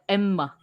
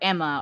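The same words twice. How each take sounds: First: The double M is held with a break. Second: The single M flows with no break. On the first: This is how young learners say it. The speaker calls it wrong. "they put like Emma, they try to say both M's" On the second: This is how native speakers say it. The speaker calls it right. "whereas we just say Anna or Emma"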